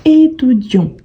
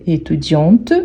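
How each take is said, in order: First: "étudiant" ending on the nasal vowel, no t; silent final T. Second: "étudiante" with a clearly sounded final t; final T pronounced. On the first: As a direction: drop the t at the end of "étudiant". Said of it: "on ne prononce pas le T à la fin". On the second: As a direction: release the last t of "étudiante". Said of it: "on prononce bien le T". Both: Shown as a demonstration.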